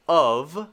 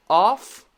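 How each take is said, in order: First: "of" said "uhv"; "of" with voiced ending; V sound. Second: "Off" high and loud, voiceless F; rising "Off" with clear F; F sound. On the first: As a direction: draw out "of" onto a buzzing V. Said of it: "Of is actually the V sound". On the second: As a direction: punch "Off" up, ending in breath. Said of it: "very clearly the f sound". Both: Shown as a demonstration.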